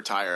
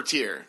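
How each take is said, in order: First: Tyr said like "tire"; alternative pronunciation of Tyr. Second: Tyr said like "tier"; pronunciation of Tyr. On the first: Offering another Norse reading, Tyr as "tire". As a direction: say Tyr with an eye vowel. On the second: Unsure of the Norse god's name, Tyr as "tier". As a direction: say Tyr with a long ee. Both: Shown as a demonstration. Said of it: "I don't speak Viking".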